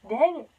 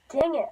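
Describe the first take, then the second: First: Wheezy after coughing; wheezy, catching breath after cough. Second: Said in the usual way. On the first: Real, not acted. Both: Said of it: "I'm so wheezy".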